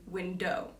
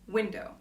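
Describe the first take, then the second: First: The stress is on the second syllable. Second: The stress is on the first syllable. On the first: The speaker calls it wrong. "the other option would be window. And I don't say it that way" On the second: The speaker calls it right. "the first stress is window"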